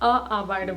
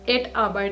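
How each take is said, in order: First: The first word is a bare vowel without t. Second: The first word ends in a clear t sound. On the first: The speaker calls it right. "अ आबाइड बोलना है" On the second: The speaker calls it wrong. "एट आबाइड नहीं कहना है"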